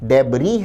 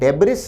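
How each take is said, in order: First: The word ends without an 's' sound. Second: The word ends with an 's' sound. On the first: The speaker calls it right. "आखिरी एस silent रहता है" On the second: The speaker calls it wrong. "डेब्रिस न होकर"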